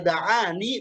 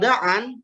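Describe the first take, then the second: First: The word ends with a final 'ee' sound. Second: The word ends without a final 'ee' sound. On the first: This reading keeps the letter ya. "kalau da'ani berarti ya-nya diisbatkan" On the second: This reading drops the letter ya. "Kalau da'an berarti ya-nya dibuang"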